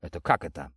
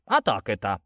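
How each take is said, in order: First: Said in the usual way. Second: Mock the questioner with a sharp jump on «А так»; teasing echo of a question; mimicking mockery. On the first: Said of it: "попытался я уточнить". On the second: A narrator's reading. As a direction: throw the question back mockingly. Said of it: "передразнил меня тот".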